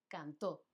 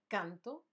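First: Cantó stressed on the final ó; stress on final syllable. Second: Canto stressed on CAN, final o unaccented; stress on first syllable. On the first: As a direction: say cantó as can-TÓ. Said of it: "con acento". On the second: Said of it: "sin acento". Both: Shown as a demonstration.

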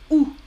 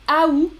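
First: Ou as one bare vowel, "oo"; ou, silent T. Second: Aou in two syllables, "a-oo"; louder, higher aou with no final T; aou, silent T. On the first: Teacher shows Canadian variant, ou as just "oo". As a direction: say ou without A or T. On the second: Teacher shows Canadian variant, aou as "a-oo". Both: Shown as a demonstration. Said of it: "pas de T final prononcé".

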